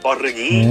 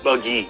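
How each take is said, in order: First: The R sound is pronounced strongly. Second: The R sound is pronounced weakly. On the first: This is how Indonesians say it. "di Indonesia menekas sekali the sound R" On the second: This is how Malaysians say it. "orang Malaysia tidak"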